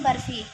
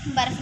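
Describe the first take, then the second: First: बर्फ़ी with a clear long ई at the end; बर्फ़ी said in full as the correction; correct word said. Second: बर्फ said short, with no ending vowel; बर्फ without the final ई, as a correction; wrong word said. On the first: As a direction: say बर्फ़ी, landing on the final ई with a falling tune. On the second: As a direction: say बर्फ, stopping at the f. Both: Shown as a demonstration. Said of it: "बर्फ नहीं".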